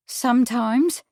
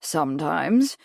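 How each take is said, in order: First: Higher-pitched reluctant admission, rising at the end. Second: Low, questioning echo with a rise. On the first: Witness asked if she was paid, very reluctant. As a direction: own up very reluctantly, pitch raised. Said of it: "now very reluctantly". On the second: Lawyer querying the witness's admission, questioning echo. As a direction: echo it back as a pointed question. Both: A narrator's reading.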